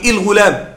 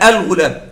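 First: The word begins with an 'i' vowel. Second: The word begins with an 'a' vowel. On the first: The speaker calls it wrong. "لا يوجد كسر، لا أقول الغلام" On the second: The speaker calls it right. "همزة أل فقط الفتح"

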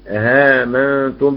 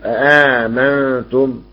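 First: The second glottal stop is eased and softened. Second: Both glottal stops are fully pronounced. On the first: "بالتسهيل" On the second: "يقرؤون بالتحقيق"

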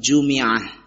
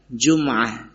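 First: The m is followed by an i vowel. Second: The m is followed by no vowel. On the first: "bisa juga dibaca dengan kasrah" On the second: "dibaca dengan disukunkan mimnya"

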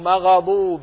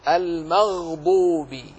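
First: The vowelless gh is blurred and not held. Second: The vowelless gh is crisp and clearly held. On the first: The speaker calls it wrong. "وكأنه سمع من يقرأ مغضوب، لا" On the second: The speaker calls it right. "احرص على سكون كل حرف ساكن وبيانه"

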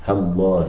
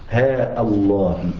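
First: A short vowel runs into Allah without a stop. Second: A long vowel, then a glottal stop before Allah. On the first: "أن تحذف ألفها والهمزة من اسم الله تعالى" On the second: "أن تثبت ألفها وتقطع الهمزة من اسم الله تعالى"

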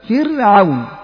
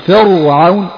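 First: The r sound is light and thin. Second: The r sound is heavy and emphatic. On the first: The speaker calls it right. "الراء الساكنة التي قبلها مكسور" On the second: The speaker calls it wrong. "لا تقول"

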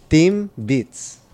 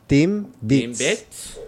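First: It is said with lively, swooping pitch. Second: The same.

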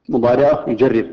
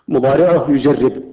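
The two takes are said the same way.

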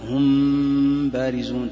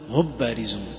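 First: The m is hidden with a held nasal hum. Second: The m is merged fully into the following b. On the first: "فإذا كان هذا الأقرب إخفاء فتقول مثلا ... تحس الغنة" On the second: "وإذا أدغمتها قلت"

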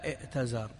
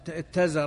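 First: A glottal stop is heard before the t. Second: The hamza is merged into a doubled t. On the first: This is the eloquent classical form. The speaker calls it right. "والفصحاء على ائتزر" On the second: This is a colloquial form. The speaker calls it wrong. "اتزر عامي"

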